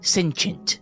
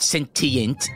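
First: The middle consonant is pronounced soft. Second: The middle consonant is pronounced hard. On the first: The speaker calls it right. "it's soft" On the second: The speaker calls it wrong. "Not sentient"

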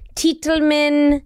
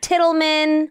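First: The first syllable rhymes with 'bite'. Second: The first syllable rhymes with 'bit'. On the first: The speaker calls it right. "like the title of a book and a man" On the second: The speaker calls it wrong. "not Tittleman"

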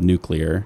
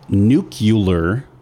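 First: The ending sounds like 'clear', not 'cue-lur'. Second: The ending sounds like 'cue-lur', not 'clear'. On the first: The speaker calls it right. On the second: The speaker calls it wrong.

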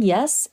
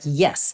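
First: The pitch rises on the word. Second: The pitch falls on the word. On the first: It is a question. "we hear a kind of question" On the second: It is an emphatic affirmation. "and then an emphatic yes"

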